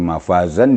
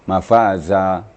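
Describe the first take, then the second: First: The word ends with an n sound. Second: The word ends with a long vowel.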